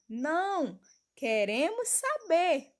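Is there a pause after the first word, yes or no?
yes. There is a pause after "não".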